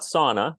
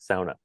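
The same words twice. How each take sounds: First: It is said with the common American pronunciation. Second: It is said with the Finnish pronunciation. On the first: The speaker calls it wrong. "not sauna, like we sort of commonly hear" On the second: The speaker calls it right. "the proper Finnish way"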